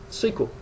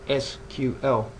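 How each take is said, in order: First: It is said as a single word. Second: It is spelled out as three separate letters. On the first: This is an older form of the name still used in some places. "you hear North Americans refer to the language as" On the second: This is the standard form of the name. "the correct pronunciation for S Q L, which is that S Q L, as in the acronym"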